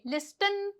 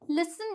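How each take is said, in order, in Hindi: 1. t ध्वनि उच्चारित होती है। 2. t ध्वनि मौन है। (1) "लिस्टन तो नहीं बोलते ना" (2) "लिसन बोलेंगे"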